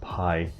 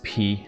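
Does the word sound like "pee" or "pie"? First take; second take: pie; pee. First: The vowel sounds like "eye", rhyming with "sky". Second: The vowel sounds like "ee", rhyming with "see". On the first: The speaker calls it wrong. "not pie" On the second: The speaker calls it right. "it's P, how you pronounce it"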